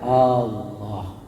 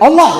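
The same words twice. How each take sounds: First: It is said softly and slowly. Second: It is said sharply and loudly. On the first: The dying person is guided calmly. The speaker calls it right. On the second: The dying person is startled. The speaker calls it wrong. "jangan gitu. Jangan dibentak dia"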